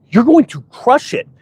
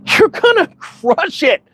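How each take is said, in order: First: Said in the usual way. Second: Higher, slow, earnest reassurance; slow it down and reassure him; reassuring encouragement. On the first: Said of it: "I said". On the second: Retold or imitated. Telling the tired friend he will make it, reassuring. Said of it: "you could see this relief come over him".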